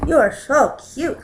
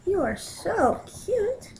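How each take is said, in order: First: Said in the usual way. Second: High, slow, soft cooing. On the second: Real, not acted. Owner cooing at her cat, high slow baby talk.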